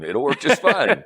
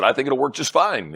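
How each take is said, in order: First: Slow, chuckling repeat of the agreement; laughing repeat. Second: Said in the usual way. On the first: Retold or imitated. To his host, agreeing for half a million, laughing slowly.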